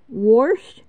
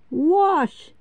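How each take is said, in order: First: Wash said as "worsh". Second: Said in the usual way. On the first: Shown as a demonstration. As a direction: slip an R into wash before the SH. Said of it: "use the letter S as R".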